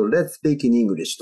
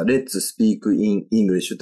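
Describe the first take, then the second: First: "Let's Speak in English" run together as "retspiikiningurisshu"; linked pronunciation. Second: Slow "Let's Speak in English", each word separate; slow word-by-word Japanese reading, no linking; unlinked katakana reading. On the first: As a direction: link "in English" into "ningurisshu". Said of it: "Englishって言ってるわけですよね". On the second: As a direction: say "Let's Speak in English" slowly as "rettsu supiiku in ingurisshu". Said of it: "ただこれを日本語リッシュですと". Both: Shown as a demonstration.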